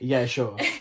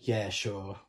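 First: It sounds casual and offhand, a plain agreement. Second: It sounds sarcastic, meaning the opposite of yes. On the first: The speaker agrees, though a little offhandedly. "it's a bit flippant" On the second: The speaker does not really like it. "it could also be like sarcastic"

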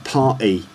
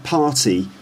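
First: The T sound is dropped. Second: The T sound is clearly pronounced. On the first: "but a party" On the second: "It's not a party"

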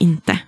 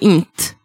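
First: The final vowel is kept in the word. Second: The final vowel is dropped from the word.

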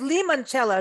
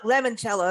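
First: The first syllable sounds like 'lee'. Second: The first syllable sounds like 'lem'. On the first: The speaker calls it right. "So it's limoncello" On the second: The speaker calls it wrong. "not lemoncello, as many of us mispronounce"

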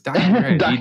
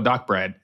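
First: The ending is split into letter B and Rad. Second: The ending is said as the single word Brad. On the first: The speaker calls it right. "man, it's Doc B Rad" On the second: The speaker calls it wrong. "everybody's like, yo, Doc Brad"

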